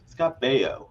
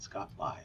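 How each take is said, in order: First: The surname is said as 'bay-oh'. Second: The surname is said as 'bio'. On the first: The speaker calls it right. "Scott Baio, not Scott Bio" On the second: The speaker calls it wrong. "not Scott Bio"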